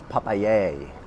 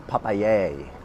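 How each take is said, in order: First: It is pronounced with a Spanish accent. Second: The same.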